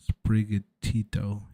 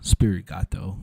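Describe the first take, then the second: First: It begins with 'spri' and ends 'gatito'. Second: It begins with 'spirit' and ends 'gato'. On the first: The speaker calls it right. "Okay, I got it right. Kinda" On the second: The speaker calls it wrong. "I mispronounced that Pokemon's name for like two years until I realized that I was saying it wrong"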